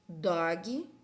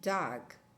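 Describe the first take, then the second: First: It is said with a Brazilian Portuguese accent. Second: It is said with an English accent. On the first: "eu tô falando em português" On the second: "ou eu tô falando em inglês?"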